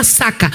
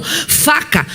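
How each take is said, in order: First: Saca with an S in place of the F of faca; childish mispronunciation, saca instead of faca; child's lisp. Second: Said in the usual way. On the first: Retold or imitated. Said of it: "faca, ela chamava saca". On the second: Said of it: "faca, era saca".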